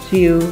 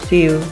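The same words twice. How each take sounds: The two takes are said the same way.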